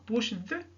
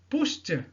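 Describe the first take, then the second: First: The ending is not pronounced as a t sound. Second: The ending is pronounced as a t sound. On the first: The speaker calls it wrong. "et non pas pushed" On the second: The speaker calls it right. "t, Donc le ed ici se prononce comme t"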